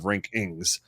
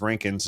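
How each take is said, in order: First: The final G sound is pronounced. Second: The final G sound is dropped.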